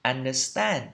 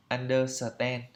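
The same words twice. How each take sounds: First: Understand in three syllables, stress on STAND; un-der-STAND, no vowel inside the "st" of understand; correct pronunciation. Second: Understand as even "un-do-suh-ten"; evenly timed four-syllable "un-do-suh-ten" understand; Vietnamese-style mispronunciation. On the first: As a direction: join S and T cleanly in understand, landing on the last syllable. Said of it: "Phải đọc đúng theo phiên âm là". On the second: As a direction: say understand with an extra vowel after S and no final D. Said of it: "như vậy là không đúng". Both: Shown as a demonstration.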